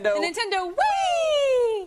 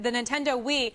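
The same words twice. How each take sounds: First: It is said with lively, fun excitement. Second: It is said in a plain, flat way.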